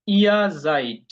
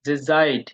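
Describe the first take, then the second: First: Slow, stressed ইয়া জাইড with a long clear আই sound; teacher drawing out জাইড for the class; drawn-out pronunciation demo. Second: Said in the usual way. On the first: Shown as a demonstration. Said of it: "এ ই এর উচ্চারণ কি?". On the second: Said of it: "আমরা যদি আবার ওখানে যাই".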